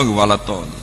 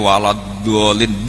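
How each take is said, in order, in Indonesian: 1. Kata terakhir dimulai dengan bunyi t. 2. Kata terakhir dimulai dengan bunyi d. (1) "Tetep walad tolin" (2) "Mbok entek kiyaine walad dolin"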